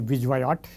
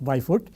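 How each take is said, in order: First: The name is read out the way it is spelled. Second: The name sounds like 'Byfoot'. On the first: "you can say Vijwayot if you want. That's what most of us spell it" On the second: "but it is pronounced Byfoot"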